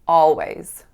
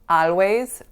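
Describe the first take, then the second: First: The first vowel sounds like ah. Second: The first vowel sounds like a. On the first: The speaker calls it right. "making the sound ah" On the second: The speaker calls it wrong. "or a"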